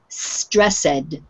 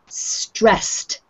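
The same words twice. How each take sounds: First: The ending is said as an extra syllable. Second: The ending is a t sound, one syllable. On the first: The speaker calls it wrong. "pronounce it as a, another um, uh, syllable ... but that's wrong" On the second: The speaker calls it right. "the ed sounds like T on the end"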